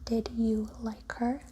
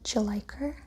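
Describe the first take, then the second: First: The word 'did' is fully pronounced before 'you'. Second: The first two words merge into a reduced 'd'you'. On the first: "instead of" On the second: "we might hear "d'you like her?""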